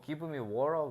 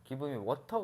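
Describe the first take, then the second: First: It is said in an American-style English accent. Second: It is said in a Korean-style English accent. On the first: Local listeners do not understand it. The speaker calls it wrong. "give me water 그러면은 못 알아들어" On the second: Local listeners understand it. The speaker calls it right. "give me water 그래야 알아들어"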